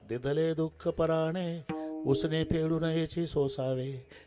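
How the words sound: It is said in a gentle, mild tone.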